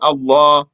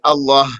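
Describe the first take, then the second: First: The final h is dropped; the long vowel stays. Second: The long vowel is dropped; the final h stays. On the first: "omit the ha and say Allah" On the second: "omit the alif and say Allah"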